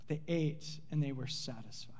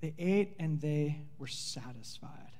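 First: "They ate and they were satisfied" softer, ate falling; soft echo. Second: "They ate and they were satisfied" slow, with ate lifted and stretched; emphatic, slow. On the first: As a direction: let the line fade as a quiet echo. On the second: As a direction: lean on ate, let it land slowly. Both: Shown as a demonstration. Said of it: "and get this, underline it".

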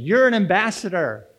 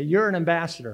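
First: You're an ambassador, said firmly and louder; with conviction. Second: Said in the usual way. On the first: Shown as a demonstration. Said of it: "say it with some conviction".

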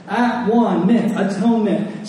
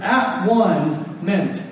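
First: Said in the usual way. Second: At one meant, each part said slowly apart; split into three words. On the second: Shown as a demonstration. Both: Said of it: "Atonement is a three-in-one word".

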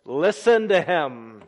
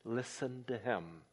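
First: Loud and slow, listen to him; ringing command from heaven; booming voice of God. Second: Softer, listen to him almost breathed; quiet echo of the heavenly voice; hushed voice of God. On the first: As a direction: proclaim it like the voice from heaven. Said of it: "And then this". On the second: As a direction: let it fall away to a hush. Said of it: "This is my beloved Son". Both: Shown as a demonstration.

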